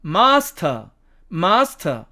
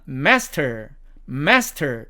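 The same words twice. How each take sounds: First: British "master", long ah, silent r; British demo of "master", r dropped; British accent. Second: American "master", front a and sounded r; American demo of "master", r kept; American accent. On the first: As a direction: say "master" as British "mahs-tuh". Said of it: "영국식 발음으로 가면". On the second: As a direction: say "master" as American "mes-ter". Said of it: "미국식 발음으로 읽으면". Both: Shown as a demonstration.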